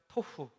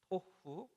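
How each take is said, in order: First: The word is said quickly and run together. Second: The word is said slowly and carefully. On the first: "이걸 빨리 하니까 그냥 토후. 예, 이렇게 들리는데" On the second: "정확하게 얘기하면은 토후입니다"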